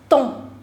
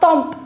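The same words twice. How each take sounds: First: The final consonants are left silent. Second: The final consonants are sounded out. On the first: The speaker calls it right. "M P S, all of them are silent" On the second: The speaker calls it wrong. "It's not temps"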